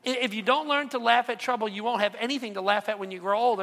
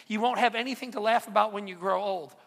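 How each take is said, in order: First: Said in the usual way. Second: Laughing. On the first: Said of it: "Think about that". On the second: Real, not acted.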